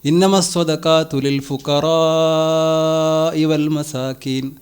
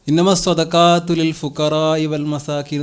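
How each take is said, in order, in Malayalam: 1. 'fuqara'യിലെ സ്വരം ദീർഘമായി പിടിച്ചാണ് പറയുന്നത്. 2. 'fuqara'യിലെ സ്വരം ഹ്രസ്വമായാണ് പറയുന്നത്. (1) "ആ അലിഫ് നീട്ടിക്കൊണ്ട്" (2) "ഇങ്ങനെയല്ല അള്ളാഹുവിൻ്റെ റസൂലിന് എന്ത് ചെയ്തത് അവതരിപ്പിക്കപ്പെട്ടത്"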